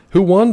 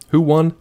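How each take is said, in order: First: High, loud who won with stress on "won"; mock outrage. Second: Higher, louder who won; mock insistent question. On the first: Streamer repeating who won even louder. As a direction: push the question harder, louder. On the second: Streamer mock-demanding who won the fight, loud. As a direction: demand it theatrically.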